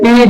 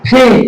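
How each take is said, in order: First: The first sound is plain, without a puff. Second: The first sound has a strong puff of air. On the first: The speaker calls it wrong. "This is wrong pronunciation" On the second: The speaker calls it right. "সঠিক উচ্চারণ হবে ফি"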